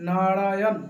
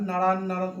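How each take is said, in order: First: নারায়ণ said in full, "na-ra-yon", every syllable clear; correct pronunciation. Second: নারায়ণ slurred like "naran", the middle "ya" swallowed; wrong pronunciation. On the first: Teacher giving devotees the right way to say নারায়ণ, full and clear. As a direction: spell out নারায়ণ fully and clearly. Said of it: "নারায়ণ নাম উচ্চারণ হবে". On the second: Teacher showing how some devotees mispronounce নারায়ণ, slurred. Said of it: "ভগবানের উচ্চারণ করতে পারে না". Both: Shown as a demonstration.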